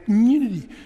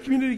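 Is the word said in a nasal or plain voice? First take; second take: nasal; plain. First: It is said with a nasal voice. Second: It is said in a plain voice.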